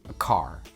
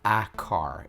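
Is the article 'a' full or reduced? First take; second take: reduced; full. First: The article is short and barely pronounced. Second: The article is said fully and clearly. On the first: The speaker calls it right. "It's almost like I'm not even pronouncing it" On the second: The speaker calls it wrong. "it's not a car"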